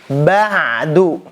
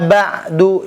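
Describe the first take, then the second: First: The ain sound carries a little flowing voice. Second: The ain sound is cut off without flowing voice. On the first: The speaker calls it right. "Jadi suaranya sedikit mengalir" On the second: The speaker calls it wrong. "itu belum mengalir suaranya ya"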